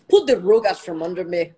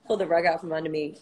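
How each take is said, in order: First: "rug" with an oo-like vowel, louder; exaggerated "rug". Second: Said in the usual way. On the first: Telling listeners about a cheating ex, "rug" exaggerated. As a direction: punch out "pulled the rug" with a rounded "rug". Playfully overdoes the phrase, then repeats.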